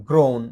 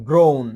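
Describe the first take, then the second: Both takes have the same delivery.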